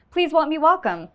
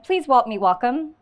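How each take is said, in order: First: "Please help me welcome" high, loud and still muddled, falling at the end; garbled retry. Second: "Please help me welcome" loud and muddled, lifting questioningly at the end; garbled first attempt. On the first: Retold or imitated. Retrying the CEO's introduction on stage, garbled and forceful. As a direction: push out "help me" as a slurred "walm me", high and loud. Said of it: "let me try this again".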